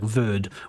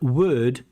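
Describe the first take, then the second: First: The word starts with a v sound. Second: The word starts with a w sound. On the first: The speaker calls it wrong. "it sounds like verd" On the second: The speaker calls it right. "when you say words like word"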